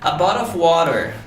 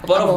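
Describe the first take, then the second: First: It is said in an American accent. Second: It is said in an Australian accent.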